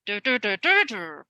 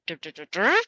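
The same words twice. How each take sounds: First: "Dur" hummed as even, falling beats, the stressed one punched; kazoo-style stress beats. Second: "Dur" beats hummed low, the last one rising like a question; rising question tune. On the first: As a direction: hum "dur" like a kazoo, marking each stress. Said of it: "make the sound and make the stress in the right place". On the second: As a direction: hum "dur" and lift the end into a question. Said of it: "How our questions go up at the end". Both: Shown as a demonstration.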